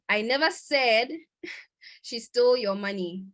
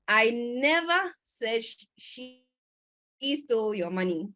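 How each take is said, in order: First: The stress falls on the word "said". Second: The stress falls on the word "never". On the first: The speaker implied it without saying it. "Maybe I implied it whilst I was speaking" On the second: The speaker did not ever say it. "this means that I didn't ever say it"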